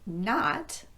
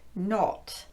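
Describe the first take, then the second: First: The vowel is open with unrounded lips. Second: The vowel is said with rounded lips.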